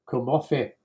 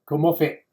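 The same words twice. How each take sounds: First: The final t is a glottal stop. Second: The same.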